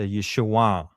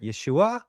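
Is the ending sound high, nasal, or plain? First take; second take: nasal; high. First: The ending is a nasal back sound going down. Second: The ending is pitched higher, without a nasal sound. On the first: The speaker calls it right. "a nasal back sound, and it's a downward" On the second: The speaker calls it wrong. "they might even go higher"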